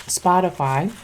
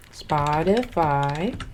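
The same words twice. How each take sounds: First: Said in the usual way. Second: Spotify stretched out slowly, each syllable long; drawn-out Spotify. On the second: Shown as a demonstration. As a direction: drag out Spotify lazily.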